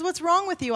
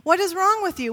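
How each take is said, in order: First: Higher, scolding wife; stern queen. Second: Much higher, louder, exasperated; exasperated queen. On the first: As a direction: demand it like an impatient wife. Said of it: "she looks at him and says". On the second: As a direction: snap it at a sulking husband. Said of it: "Strong woman that she is". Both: Acted.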